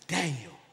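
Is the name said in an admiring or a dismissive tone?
dismissive. The name is said in a dismissive way. The person named is valued little. "But in his eyes, it's Daniel"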